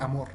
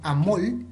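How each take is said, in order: First: The word ends with an r sound. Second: The word ends with an l sound. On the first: This matches how the word is written. "lugar de amor" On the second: This is how it is pronounced in Costa Rica. "la R la cambiaron por el sonido de L"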